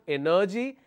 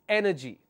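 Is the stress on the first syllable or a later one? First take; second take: later; first. First: The stress is not on the first syllable. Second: The stress is on the first syllable. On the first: The speaker calls it wrong. "It's not energy" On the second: The speaker calls it right. "I will have the stress on the third syllable from the end"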